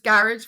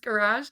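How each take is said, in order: First: Garage is said with an Irish pronunciation. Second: Garage is said with an American pronunciation.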